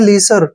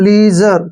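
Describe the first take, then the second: First: The middle consonant is a hissing s sound. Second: The middle consonant is a buzzing zh sound. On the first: The speaker calls it wrong. "इसको गलत पढ़ते हैं सभी तकरीबन, इसको पढ़ते हैं लीसर। ... जो कि गलत है।" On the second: The speaker calls it right. "आई एस का उच्चारण हम जे के रूप में करते हैं ... इसको पढ़ेंगे हम लीजर।"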